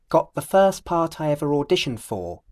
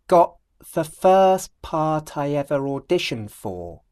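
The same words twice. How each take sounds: First: The phrase is spoken at normal speed. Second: The phrase is spoken very slowly. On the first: "Then I'll do it at normal speed" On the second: "First, I'll do it very slowly"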